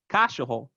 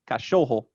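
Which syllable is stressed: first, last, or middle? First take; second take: first; middle. First: The stress is on the first syllable. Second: The stress is on the middle syllable. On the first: "If it was on the first syllable, it would be like" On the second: "But it's on the second syllable"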